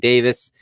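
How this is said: The name is pronounced the British way. "in the U K they say Davis"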